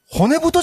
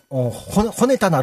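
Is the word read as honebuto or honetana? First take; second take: honebuto; honetana. First: The word is read as honebuto. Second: The word is read as honetana. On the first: The speaker calls it right. "それ骨太じゃないの？" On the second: The speaker calls it wrong. "今の骨たなロックっていうわけ"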